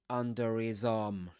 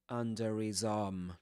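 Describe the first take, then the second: First: The h is dropped; the r links on. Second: The same.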